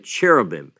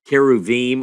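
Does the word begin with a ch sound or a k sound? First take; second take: ch sound; k sound. First: The word begins with a ch sound. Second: The word begins with a k sound. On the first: This is the common English way of saying it. "as we would say in English, if we didn't know how to pronounce it" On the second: This is the original Hebrew way of saying it. "you pronounced it more the Hebrew word keruvim"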